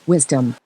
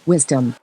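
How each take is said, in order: Both takes have the same delivery.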